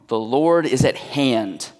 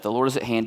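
First: The phrase is said with strong emphasis. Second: The phrase is said lightly, without emphasis. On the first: The Lord's nearness is the reason not to be anxious. The speaker calls it right. "if we read it correctly, it actually sounds like this" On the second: The command not to be anxious is the main point. The speaker calls it wrong. "it's easy to focus on do not be anxious"

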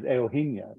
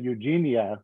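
First: The name is given its native, non-American pronunciation. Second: The name is given an American English pronunciation. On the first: The speaker calls it right. "but the proper is Eugenia" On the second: The speaker calls it wrong. "in the U.S., you'd want to say Eugenia"

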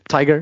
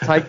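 First: The name ends with a 'ger' sound. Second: The name ends with a 'k' sound. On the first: The speaker calls it wrong. "If we keep mispronouncing his name" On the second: The speaker calls it right. "it's Tyke"

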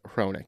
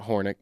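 First: The name begins with 'hro', r before vowel. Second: The name begins with 'hor', vowel before r. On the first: The speaker calls it right. "but Hronik" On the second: The speaker calls it wrong. "not Hornick"

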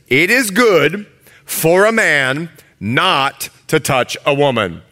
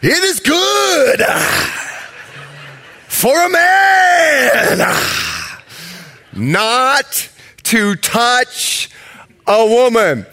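First: It is read in a plain, normal voice. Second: It is preached with Pentecostal preacher fervour.

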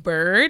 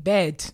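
First: The word is said with a hard R sound. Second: The word is said without an R sound. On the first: The speaker calls it right. "I wasn't saying bird. I couldn't do that hard American R" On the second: The speaker calls it wrong. "I couldn't pronounce the word bird correctly. I was saying bed"

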